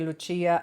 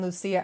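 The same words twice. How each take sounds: First: The name is said with an Italian pronunciation. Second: The name is said with an English pronunciation.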